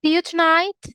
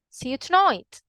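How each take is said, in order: First: Tonight with a standard British I sound, pitched up; BBC English. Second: Birmingham accent, tonight with an oy vowel. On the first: Teacher comparing two accents, BBC English. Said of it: "compare the B B C English". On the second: Teacher comparing two accents, Birmingham accent. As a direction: say it in Birmingham English, tonight like boy. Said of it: "with the Birmingham English". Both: Shown as a demonstration.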